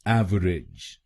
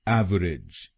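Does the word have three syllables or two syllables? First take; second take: three; three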